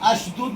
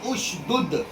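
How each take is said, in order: First: The word begins with an 'a' vowel. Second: The word begins with a 'u' vowel. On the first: The speaker calls it wrong. "यहाँ पर अशदुद नहीं पढ़ सकते आप" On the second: The speaker calls it right. "आपको पढ़ना होगा उशदुद"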